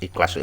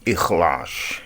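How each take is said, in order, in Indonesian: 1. Dilafalkan dengan lafal Indonesia yang mengikuti ejaan tulisan. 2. Dilafalkan dengan lafal Arab yang asli. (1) "di Indonesia karena sering baca tulisannya jadi ikhlas" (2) "ya bukan. Ikhlas"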